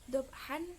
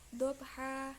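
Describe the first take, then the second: First: The word ends with a short vowel and n. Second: The word ends with a lengthened vowel, no n. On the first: The reader goes on without stopping here. "yang tadinya dibaca dobhan" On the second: The reader stops at this word. "jadi dibaca dobha"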